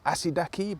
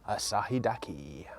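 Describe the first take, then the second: First: The h sound is dropped from the name. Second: The h sound is pronounced in the name. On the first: The speaker calls it wrong. "maybe shortened to Asidaki" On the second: The speaker calls it right. "he did add in the H"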